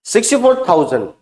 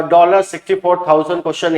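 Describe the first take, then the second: First: sixty four thousand said first, with no dollar before it; correct reading. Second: dollar said first, before sixty four thousand; wrong word order. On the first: Teacher shows students the right way to read it. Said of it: "इसको पढ़ेंगे sixty four thousand". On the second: Teacher shows students the wrong way to read it. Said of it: "इसको ऐसा नहीं पढ़ेंगे". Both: Shown as a demonstration.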